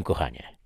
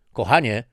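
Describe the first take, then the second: First: Said in the usual way. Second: "Kochanie" raised and louder, falling off; "Kochanie" pushed up to get her attention; calling for attention. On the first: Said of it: "oznajmił z zadowoleniem". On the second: Acted. Husband trying to catch wife's attention, raised "Kochanie". Checking if wife listens.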